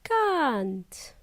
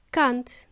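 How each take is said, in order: First: CAN'T with a drawn-out ah; slow, open "kahnt" for CAN'T; long ah. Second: CAN'T with a short, cut-off ah; brief "kunt" for CAN'T. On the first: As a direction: stretch the vowel in CAN'T to a long ah. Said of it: "Or a long ah sound". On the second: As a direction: say CAN'T quickly with a short vowel. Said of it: "Don't say short ah". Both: Shown as a demonstration.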